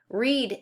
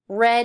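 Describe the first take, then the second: First: Read is pronounced as the present-tense form. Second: Read is pronounced as the past-tense form. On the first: The speaker calls it wrong. "read is in the present tense" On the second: The speaker calls it right. "the actual proper past tense form of read"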